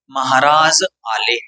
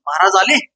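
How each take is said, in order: First: It is said with statement intonation. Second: It is said with question intonation.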